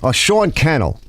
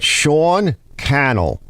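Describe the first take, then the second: First: Said in the usual way. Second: "Sean Cannell" spelled out slowly, each syllable clear; the name "Sean Cannell" drawn out syllable by syllable to repeat it; slow careful name. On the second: Shown as a demonstration. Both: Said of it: "I think is kind of how he says it".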